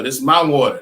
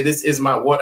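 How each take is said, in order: First: "is" dropped, "This is" squeezed into one syllable; everyday vernacular. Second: "is" sounded as a separate word; standard English. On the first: Confirming a student's answer, casual with "is" left out. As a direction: run straight into "my" without sounding "is". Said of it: "that's how we speak". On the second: Mocking how we don't talk to each other, "is" fully pronounced. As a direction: give "is" its full sound before "my". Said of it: "That's not how we talk". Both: Shown as a demonstration.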